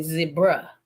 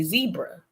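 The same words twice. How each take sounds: First: ZEBRA said the British way, with short e; British pronunciation. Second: ZEBRA said the American way, with long ee; American pronunciation. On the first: Retold or imitated. English visitors naming the animal, zebra with short British e. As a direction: say zebra as the English do, ZEB-ruh. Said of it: "when real English people come over here and they say". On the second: Shown as a demonstration. Contrasting with English visitors, zebra with long American ee. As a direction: say zebra as ZEE-bruh. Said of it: "well, we say zebra".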